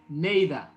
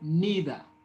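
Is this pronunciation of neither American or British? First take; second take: British; American. First: It is said with a British pronunciation. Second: It is said with an American pronunciation. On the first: "The British say neither" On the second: "Americans say neither"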